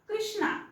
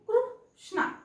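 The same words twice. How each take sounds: First: The first syllable has an 'ee' vowel, kree. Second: The first syllable has an 'oo' vowel, kroo. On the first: "क्री क्री, क्रू म्हणत नाहीये मी" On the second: "क्रू क्रू"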